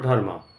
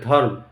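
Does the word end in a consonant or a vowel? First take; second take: vowel; consonant. First: The word ends with a vowel after m. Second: The word ends on the consonant m. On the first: "not dharma" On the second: "I will pronounce as dharm"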